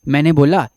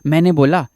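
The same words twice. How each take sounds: The two takes are said the same way.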